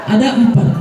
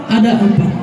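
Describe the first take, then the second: No difference in how they are said.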